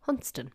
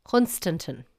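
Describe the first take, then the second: First: "Hunston" in two syllables, the "stan" gone; local pronunciation. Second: "Hunstanton" read as spelt, with a full "stan"; spelling pronunciation. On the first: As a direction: swallow the middle, just "Hunston". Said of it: "it's actually pronounced". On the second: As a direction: say all three syllables of "Hunstanton". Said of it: "look at the spelling and say". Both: Shown as a demonstration.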